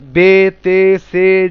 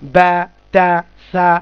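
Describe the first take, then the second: First: Each letter name ends in an 'e' vowel. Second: Each letter name ends in an 'a' vowel. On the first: The speaker calls it wrong. "এটাকে মাজহুল বলা হয়, মানে অসম্পূর্ণ উচ্চারণ বা ভুল উচ্চারণ" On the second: The speaker calls it right. "মারুফ কি"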